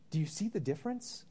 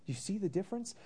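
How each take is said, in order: First: Said in the usual way. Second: Higher, pressing repeat of the question; emphatic repeat. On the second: Real, not acted. Pastor presses the congregation, higher and urgent. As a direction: push the question home to them.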